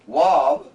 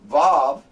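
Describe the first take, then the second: First: It begins with a w sound. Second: It begins with a v sound. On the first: "but it can also be called Wav" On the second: "we not only call the Vav, Vav"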